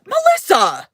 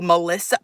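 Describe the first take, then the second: First: Higher, louder call of the name. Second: Said in the usual way. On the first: Acted. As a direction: yell the name to call her out. Calling out a viewer.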